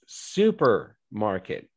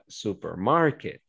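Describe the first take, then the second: First: The stress falls on the first syllable. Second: The stress falls on a later syllable. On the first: The speaker calls it right. "it's supermarket" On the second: The speaker calls it wrong. "it's not supermarket"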